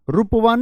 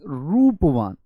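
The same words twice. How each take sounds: First: The first vowel is said short. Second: The first vowel is drawn out long. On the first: The speaker calls it wrong. "नहीं" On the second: The speaker calls it right. "थोड़ा खींच के, दीर्घ"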